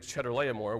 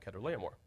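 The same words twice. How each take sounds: First: The name begins with a 'ch' sound. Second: The name begins without a 'ch' sound. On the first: The speaker calls it wrong. "in English we pronounce the CH with a ch sound" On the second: The speaker calls it right. "the proper pronunciation"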